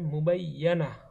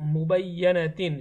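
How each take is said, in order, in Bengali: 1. শব্দটি ছোট -ah দিয়ে শেষ হয়। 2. শব্দটি পূর্ণ -atin দিয়ে শেষ হয়। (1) "যদি থামি এখানে তাহলে হবে" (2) "প্রথম শব্দের উচ্চারণ করেছি"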